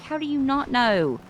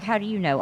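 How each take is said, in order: First: "not" pushed higher and louder in a retold retort; stress on NOT. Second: Said in the usual way. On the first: Firing her retort back at him, leaning on "not". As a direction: lean hard on "not". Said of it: "I'm like". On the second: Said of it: "he's like".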